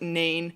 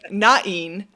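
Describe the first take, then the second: First: The name is said as one syllable. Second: The name is said as two syllables. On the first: "some people pronounce it Nain" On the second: "pronounce everything with two syllables, so that's what I'm going to roll with"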